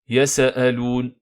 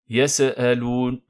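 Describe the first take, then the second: The two takes are said the same way.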